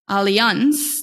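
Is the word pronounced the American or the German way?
German. The word is said with a German pronunciation. "that's how we would say it in German"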